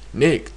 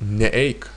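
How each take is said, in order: First: It starts with just n joined to eik. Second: It starts with a separate ne before eik. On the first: The speaker calls it right. "the imperative for neite is neik" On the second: The speaker calls it wrong. "who said uh, this imperative, said neeik"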